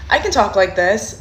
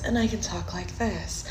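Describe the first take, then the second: First: Said in the usual way. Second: Much softer, gentle and sweet. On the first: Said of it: "Don't be afraid to change your voice". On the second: Shown as a demonstration. Coach showing guys the soft voice, soft and sweet. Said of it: "A lot of guys like that soft voice".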